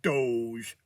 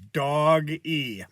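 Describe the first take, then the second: First: The word is said as one syllable. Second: The word is said as two syllables. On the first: The speaker calls it wrong. "It's not Doge" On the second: The speaker calls it right. "it's Dog E"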